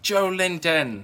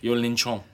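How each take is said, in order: First: The name is said with plain English sounds. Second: The name is said with Portuguese-style sounds. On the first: This is how English announcers would say it. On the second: This is the more exotic, native way to say it.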